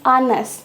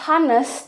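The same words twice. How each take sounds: First: The h at the start is silent. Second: The h at the start is pronounced. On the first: The speaker calls it right. "tapi honest" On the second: The speaker calls it wrong. "jadi kita bacanya bukan honest"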